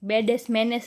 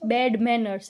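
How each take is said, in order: First: Extra vowels are added and the r sound is dropped. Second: Both words are said plainly, with no extra vowels. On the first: The speaker calls it wrong. "એમ કેમ બોલ છો?" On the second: The speaker calls it right. "બેડ મેનર્સ એમ બોલ"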